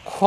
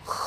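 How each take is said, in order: First: খ with rounded lips, like an aspirated k; খ with a stop onset and rounded vowel; common rounded-lip mistake. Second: খ as a throat fricative, lips unrounded; long খ without rounding the lips; correct unrounded kha. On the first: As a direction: say খ as a rounded "kho". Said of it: "আমরা বলে থাকি এরকম". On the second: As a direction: scrape খ from the throat and hold it. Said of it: "উচ্চারণ করার সময় এরকম হবে". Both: Shown as a demonstration.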